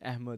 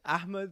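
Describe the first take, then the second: First: The name is said with Urdu pronunciation. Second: The name is said with Arabic pronunciation. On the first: "is in Urdu" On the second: "is the Arabic version"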